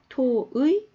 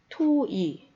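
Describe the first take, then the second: First: The second vowel is the gliding 'ui' diphthong. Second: The second vowel is a plain 'i' sound. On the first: "두 가지로 발음이 가능합니다" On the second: "토이 두 개 다 가능하다는 거"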